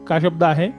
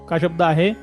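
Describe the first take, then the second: No difference in how they are said.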